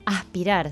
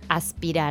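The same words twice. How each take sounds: First: The s is aspirated, Buenos Aires style. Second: The s is pronounced fully.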